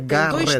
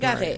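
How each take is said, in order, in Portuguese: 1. O som do T no nome é forte. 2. O som do T no nome é fraco. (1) "É Garrett. Tem dois T's" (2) "Não é Garrett"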